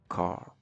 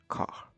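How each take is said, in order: First: The final R sound is clearly pronounced. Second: The final R sound is not pronounced. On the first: "In America, the R is pronounced clearly" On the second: "In British, the R is often not pronounced"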